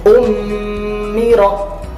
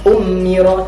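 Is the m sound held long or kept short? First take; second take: held; short. First: The m sound is nasal and held longer. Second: The m sound is short, without nasal hold. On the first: The speaker calls it right. "tapi ummiro; dibaca dengung dan ditahannya sedikit lebih lama" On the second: The speaker calls it wrong. "bukan ummiro"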